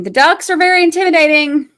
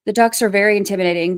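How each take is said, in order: First: Mock-scared, higher and louder, stress on very. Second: Said in the usual way. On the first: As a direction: ham up being scared of the ducks.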